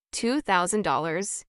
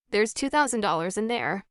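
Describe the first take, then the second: First: Slow, stunned echo of the sum; stunned disbelief. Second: Said in the usual way. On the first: A narrator's reading. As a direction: let the number sink in, slowly.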